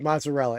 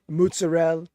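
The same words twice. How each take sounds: First: Mozzarella is pronounced with a plain American accent. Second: Mozzarella is pronounced with an Italian-style accent. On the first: "you just said it like you would normally say it" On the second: "That's how you say it"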